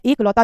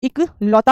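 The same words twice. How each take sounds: First: एकलौता starting with a long "ek"; एकलौता, opening on e rather than i; wrong e start. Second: इकलौता starting with a short "ik"; इकलौता, opening on i rather than e; correct short i start. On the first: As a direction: say एकलौता as "ek-lautaa". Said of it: "जैसा कोई शब्द नहीं है". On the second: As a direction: say इकलौता as "ik-lautaa". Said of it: "एकलौता जैसा कोई शब्द नहीं". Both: Shown as a demonstration.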